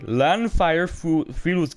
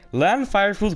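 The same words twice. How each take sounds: First: It is said slowly and carefully. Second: It is said quickly in one rush. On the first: "If you want me to do it slowly" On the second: "That's something you gotta do quickly"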